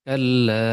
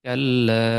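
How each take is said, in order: The two takes are said the same way.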